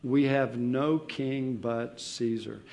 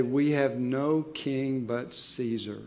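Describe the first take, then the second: First: We have no king but Caesar, slow, leaning on We; slow deliberate quote. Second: We have no king but Caesar, slow with weight on no; slow deliberate quote. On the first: Preacher exposing the priests' lie, slow and deliberate. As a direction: hold the words up as a lie. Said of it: "comes things like lies". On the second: Preacher quoting the chief priests, slow and weighty. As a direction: lay out each word of the lie. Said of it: "an incredible lie". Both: Shown as a demonstration.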